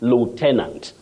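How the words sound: It is said with an American pronunciation. "but then American"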